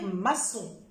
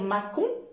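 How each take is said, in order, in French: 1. La consonne du milieu est un son s doux. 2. La consonne du milieu est un son k dur. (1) "si je mets l'acidi, je vais dire maçon" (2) "si j'enlève l'acidi, je vais dire macon"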